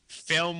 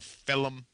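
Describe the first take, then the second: First: The word is said in a plain, standard accent. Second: The word is said in a thick New York accent.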